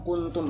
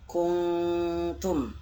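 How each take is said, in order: First: The n sound is plain and short. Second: The n sound is held and nasalized. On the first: The speaker calls it wrong. "Bukan kuntum lagi" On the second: The speaker calls it right. "tapi kuntum"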